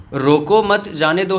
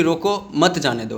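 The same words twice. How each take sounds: First: "रोको मत", short pause, then "जाने दो"; group मत with रोको, break before जाने; pause after मत. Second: "रोको", short pause, then "मत जाने दो"; group मत with जाने दो, break right after रोको. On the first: ("रोको मत" के बाद विराम, फिर "जाने दो") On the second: ("रोको" के बाद विराम, फिर "मत जाने दो") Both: Shown as a demonstration. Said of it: "शब्दों को जब तक आप चीर फाड़ नहीं करोगे".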